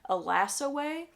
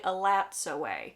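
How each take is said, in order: First: The T sound in the first word is silent. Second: The T sound in the first word is pronounced. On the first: The speaker calls it wrong. "like there was a silent T in the name, like the T wasn't pronounced" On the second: The speaker calls it right. "the name is actually Alat's Away"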